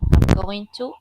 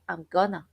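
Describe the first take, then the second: First: Going to is said in full, unreduced. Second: Going to is reduced and blended together.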